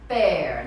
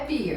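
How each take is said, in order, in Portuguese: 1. A vogal soa como a de 'air'. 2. A vogal soa como a de 'ear'. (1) "a pronúncia correta é pear" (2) "não é pear"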